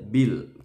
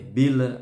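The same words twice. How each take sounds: First: The final consonant stops cleanly without a bounce. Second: The final consonant is released with a bounce. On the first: The speaker calls it right. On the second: The speaker calls it wrong.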